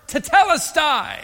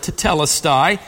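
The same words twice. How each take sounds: First: Tetelestai cried out high and slow with full strength; shouted declaration. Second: Said in the usual way. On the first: Shown as a demonstration. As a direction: call out tetelestai as a triumphant shout of victory. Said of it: "he shouts the word". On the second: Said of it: "one Greek word".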